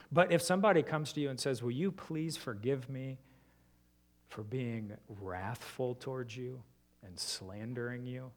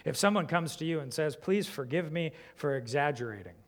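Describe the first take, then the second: First: Soft, earnest plea for forgiveness; sincere confession. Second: Said in the usual way. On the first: Shown as a demonstration. Pastor voicing a sincere confession to a listener, soft and earnest. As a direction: ask forgiveness gently and truly. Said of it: "Isn't your heart ready". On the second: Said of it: "aren't you left feeling like".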